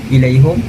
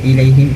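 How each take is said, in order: First: The h is followed by a u vowel. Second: The h is followed by an i vowel. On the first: This is how one reciter reads it. "hamzah akan baca ilaihum" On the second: This is how the other reciters read it. "baca uh, kasrah ha"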